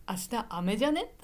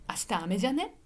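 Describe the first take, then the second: Both takes have the same delivery.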